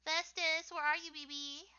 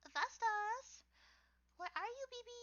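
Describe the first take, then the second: First: Said in the usual way. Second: Much higher playful calling voice; like calling a pet to come out; high sing-song call. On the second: Pretend. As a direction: call the name up high, coaxing.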